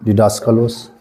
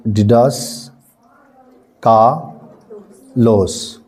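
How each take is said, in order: First: डिडास का लॉस run together at normal speed; teacher models the joined, fluent reading; read smoothly. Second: डिडास spelt out slowly, syllable by syllable; teacher slowly sounding out a Greek word. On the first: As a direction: say डिडास का लॉस in one quick go. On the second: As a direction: sound out डिडास carefully for students. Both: Shown as a demonstration. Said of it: "तेज़ी में पढ़ देना".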